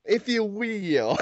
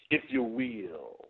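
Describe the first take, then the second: First: Very slow, drawn-out "If you will" in mock Dusty; echoing Dusty. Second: Very slow, drawn-out "if you will"; slow Dusty tag. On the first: Cohost echoing the guest's Dusty line slowly. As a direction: drag it out, imitating Dusty. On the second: Shown as a demonstration. Wrestler demoing Dusty's slow sentence ending. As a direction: stretch every word slowly. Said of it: "with it being really slow".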